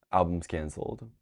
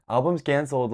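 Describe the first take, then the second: First: Said in the usual way. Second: Higher, louder, through a laugh; laughing repeat. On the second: Shown as a demonstration. Vlogger repeating the joke to viewers, laughing. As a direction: laugh it out the second time. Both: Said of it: "laughs, repeats it".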